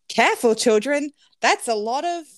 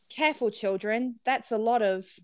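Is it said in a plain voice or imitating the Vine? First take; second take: Vine imitation; plain. First: It imitates the delivery from the Vine. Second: It is read in a plain voice.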